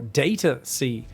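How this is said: Data is said the American way. "if you guys are uh, American"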